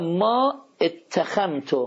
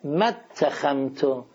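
First: The vowel after 'ma' is pronounced separately. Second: The vowel after 'ma' is dropped and linked.

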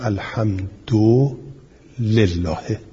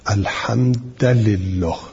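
First: The d has u and the l has i. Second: The d has a and the l has i. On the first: This is the reading all reciters agree on. "اجماع قراء اینه که بگویم الحمد لله" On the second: This is a rare reported reading. "و به فتح دال و کسر لام"

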